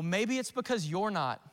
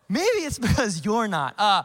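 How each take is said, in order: First: It is said bluntly, in a harsh tone. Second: It is said gently, with a smiling tone. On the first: The speaker calls it wrong. "That was harsh" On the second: The speaker calls it right. "I should have said that with a smile on my face"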